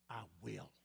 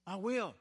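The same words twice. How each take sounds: First: Soft, low, almost to oneself: "I will"; quiet vow. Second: Said in the usual way. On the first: Acted. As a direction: murmur "I will" like a private promise. Sermon repeats the vow.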